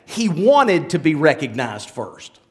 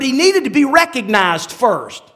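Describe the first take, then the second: First: Low, slow restatement stressing "wanted"; deliberate, lowered voice with weight on "wanted"; self-correction on WANTED. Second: Said in the usual way. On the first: Shown as a demonstration. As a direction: correct yourself slowly, dropping low and leaning on "wanted". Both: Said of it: "let me scratch that".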